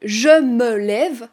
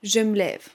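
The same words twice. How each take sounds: First: The vowel of 'me' is pronounced. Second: The vowel of 'me' is dropped. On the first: "Au lieu de dire" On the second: "on a le « me » dont on supprime le « e »"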